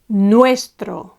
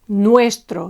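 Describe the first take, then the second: First: The stress is on the first syllable. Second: The same.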